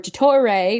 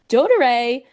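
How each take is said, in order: First: The name is said with Italian-sounding consonants. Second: The name is said with plain English sounds.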